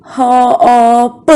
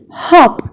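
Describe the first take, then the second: First: "Hop" drawn out sound by sound. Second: Said in the usual way. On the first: Shown as a demonstration. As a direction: break "Hop" into h, o, p, evenly. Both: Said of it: "Which vowel sounds can we hear".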